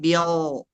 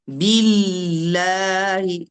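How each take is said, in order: First: The l sound is weak and nearly lost. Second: The l sound is full and clearly articulated. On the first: The speaker calls it wrong. "bukan bial" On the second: The speaker calls it right. "Huruf lam bukan dari sini suaranya. Suaranya dari sini"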